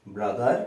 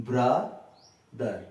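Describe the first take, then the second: First: Said in the usual way. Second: ব্রাদার slowly broken as ব্রা, pause, দার; split into syllables. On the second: Shown as a demonstration. Teacher breaking a word for students, ব্রাদার in two separate syllables. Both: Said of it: "এই দুটোকে আমি ভাঙছি".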